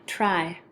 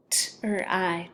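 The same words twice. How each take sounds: First: Said in the usual way. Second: "T-R-I" as separate t, r and long i sounds; tapped out. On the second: Shown as a demonstration. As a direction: break "T-R-I" apart sound by sound. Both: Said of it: "have you tap it out".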